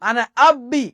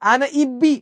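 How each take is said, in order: First: The verb begins with an 'a' vowel. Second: The verb begins with an 'i' vowel. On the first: The speaker calls it right. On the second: The speaker calls it wrong.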